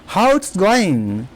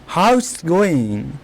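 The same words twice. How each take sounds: Both takes have the same delivery.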